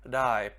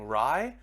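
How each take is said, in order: First: It starts with a D-like tapped sound. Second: It starts with an English R sound. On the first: The speaker calls it right. "that R sound is not a R, it's like a D" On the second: The speaker calls it wrong. "instead of saying rye"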